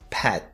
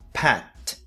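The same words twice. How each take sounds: First: The final T is held without releasing air. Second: The final T is clearly released with air. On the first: "a forma mais comum do dia a dia" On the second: "T pronunciado da maneira mais exagerada"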